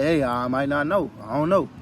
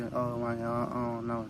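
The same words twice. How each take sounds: First: Plain and firm, owning the not-knowing; confident honesty. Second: Soft, hesitant and unsure; unsure mumble. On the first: Telling people honestly you don't know, said with firm assurance. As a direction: admit it without wavering. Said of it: "You gave them the truth". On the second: Imitating someone who can't give directions, meekly unsure. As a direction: trail off like you have no answer. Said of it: "you don't want nobody giving you directions and they just be". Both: Retold or imitated.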